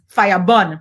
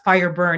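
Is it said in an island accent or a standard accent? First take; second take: island; standard. First: It is said in an island accent. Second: It is said in a standard accent.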